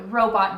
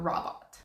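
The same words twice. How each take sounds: First: The first vowel is a long O sound. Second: The first vowel is a short O sound. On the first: The speaker calls it right. "the first O is open, meaning that it needs to be a long sound" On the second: The speaker calls it wrong. "not robot"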